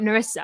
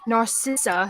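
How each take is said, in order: First: The name has no 's' sound after 'Nar'. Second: The name has a 'sis' sound after 'Nar'. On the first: The speaker calls it wrong. "and not Narissa" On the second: The speaker calls it right. "it is Narcissa"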